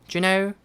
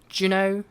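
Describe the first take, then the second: No difference in how they are said.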